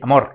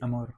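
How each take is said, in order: First: The word is said forcefully, with intention. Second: The word is said lightly, without force. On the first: The speaker calls it right. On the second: The speaker calls it wrong.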